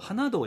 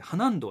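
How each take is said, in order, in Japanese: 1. 最後の音節の前にnの音はない。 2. 最後の音節の前にnの音はある。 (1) "花道じゃなくて" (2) "花ん道って言うの"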